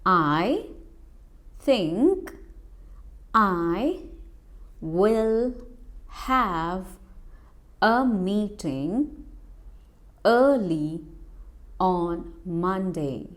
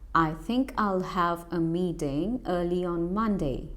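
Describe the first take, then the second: First: The words are said separately, not linked. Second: The words are linked together quickly.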